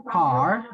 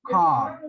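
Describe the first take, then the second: First: "car" with a clearly sounded final R; American "car", ending on a clear R. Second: "car" with the final R left silent; British "car", open vowel and no R at the end. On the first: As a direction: say "car" American-style, R fully pronounced. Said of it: "with the clear R". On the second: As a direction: say "car" British-style, dropping the R. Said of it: "in the silent voice". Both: Shown as a demonstration.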